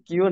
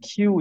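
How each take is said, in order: First: The k is unaspirated without a puff of air. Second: The k is aspirated with a puff of air. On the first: The speaker calls it wrong. "কিউ না" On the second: The speaker calls it right. "এটা কিউ উচ্চারণ করতে হবে"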